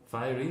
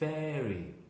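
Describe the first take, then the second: First: The first vowel sounds like 'fire'. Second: The first vowel sounds like 'fair'. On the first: This sounds like a word meaning with fire. The speaker calls it wrong. "because they say ... Fiery, which means with fuego" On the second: This is the brand name as meant. The speaker calls it right. "And Fairy"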